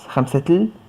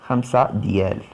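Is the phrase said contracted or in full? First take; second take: contracted; full. First: The words are run together into one short form. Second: Each word is said separately and in full.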